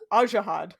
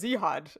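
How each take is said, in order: First: The name begins with a vowel sound. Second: The name begins with a z sound. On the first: The speaker calls it right. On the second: The speaker calls it wrong.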